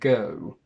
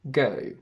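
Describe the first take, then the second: First: The vowel ends with clearly rounded lips. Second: The vowel ends with little lip rounding. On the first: "go with the rounded lips for the oo" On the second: "the lips don't actually move on the oo sound"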